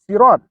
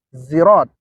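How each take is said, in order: First: It begins with a plain, light s sound. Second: It begins with a z sound. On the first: "dengan menggunakan huruf sin" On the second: "dengan menggunakan huruf zai"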